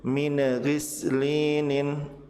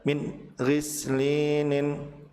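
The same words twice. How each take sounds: First: The final n bounces before the next word. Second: A pause breaks the phrase between the words. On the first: "tidak boleh memantul" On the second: "atau ada jeda"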